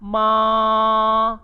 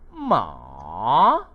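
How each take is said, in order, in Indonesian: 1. Nadanya tinggi dan datar. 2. Nadanya turun rendah lalu naik. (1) "Bagi nada pertama disebut sebagai ma" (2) "Yang ketiga pula disebut sebagai ma"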